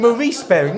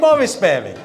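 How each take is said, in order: First: The first name is said the American way. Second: The first name is said the English way. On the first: "In America, it's Maurice" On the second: "No, I mean Morris Baring"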